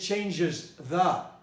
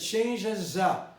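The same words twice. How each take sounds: First: The word 'the' is fully pronounced. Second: The word 'the' is reduced and linked. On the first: "I didn't say changes the" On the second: "I said changes the"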